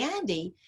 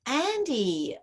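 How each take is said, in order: First: Soft, gentle use of her name after a deep breath; calm, gentle. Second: Sharp, annoyed calling of her name; irritated call. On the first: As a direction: say the name softly, calmed down. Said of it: "take that good old deep breath". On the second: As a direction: snap the name out in mild irritation. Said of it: "you might be irritated". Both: Retold or imitated.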